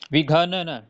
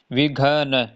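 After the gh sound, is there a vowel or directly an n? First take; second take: vowel; vowel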